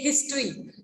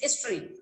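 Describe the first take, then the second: First: The h sound is pronounced, Indian style. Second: The h sound is dropped, British style.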